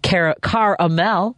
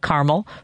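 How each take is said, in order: First: The word is said with three syllables. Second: The word is said with two syllables. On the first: "my daughter says it Caramel" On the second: "spelled it C-A-R-M-E-L, Caramel, for me"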